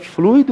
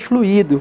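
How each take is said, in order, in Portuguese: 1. O i faz parte da primeira sílaba, então são duas sílabas. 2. O i forma uma sílaba própria, então são três sílabas. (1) "onde o I faz parte da primeira sílaba" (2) "onde o I faz parte de uma sílaba separada"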